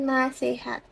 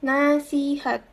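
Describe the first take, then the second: First: The second vowel is an e sound. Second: The second vowel is an i sound. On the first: The speaker calls it wrong. "bukan nasihat" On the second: The speaker calls it right. "seharusnya menggunakan I, bukan E"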